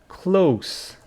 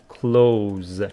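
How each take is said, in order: First: The word ends with a soft s sound. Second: The word ends with a buzzing z sound. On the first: It is used as an adjective. "If it is an adjective, we pronounce it" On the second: It is used as a verb. "But if it is a verb, we pronounce it"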